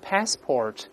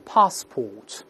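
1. o后面发卷舌音r。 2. o后面不发卷舌音r。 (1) "美国人呢读成passport，这个a 变成a，这个o 变成or，加卷舌音了" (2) "英国人读成passport，前面发a，后面发o"

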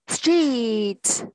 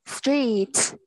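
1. Từ này nói chậm và kéo dài. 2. Từ này nói nhanh và ngắn. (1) "coi đó cô đọc chậm nha" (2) "đọc nhanh này"

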